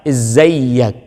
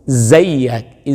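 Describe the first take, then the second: Both takes have the same delivery.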